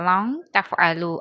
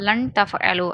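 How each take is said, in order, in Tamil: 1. நூன் மறைக்கப்பட்டு மூக்கின் வழியாக ஒலிக்கப்படுகிறது. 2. நூன் தெளிவாகவும் நேராகவும் உச்சரிக்கப்படுகிறது. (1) "இந்த நூனை வந்து மூக்கில் மறைச்சி ஓதணும்" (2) "சாதாரணமாக லன் தஃப் அலோ அப்படின்னு ஓதக்கூடாது"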